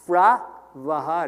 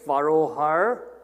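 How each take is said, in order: First: The opening is one clipped syllable, fra. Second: The opening is two syllables, far-a. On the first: "the correct avastha pronunciation of this symbol is fra" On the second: "a lot of people say furrow har. It's okay to say that"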